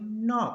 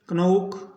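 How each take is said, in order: First: The word starts with an n sound. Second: The word starts with a k sound. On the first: The speaker calls it right. "इसको पढ़ेंगे नॉक" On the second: The speaker calls it wrong. "ये सब गलत है"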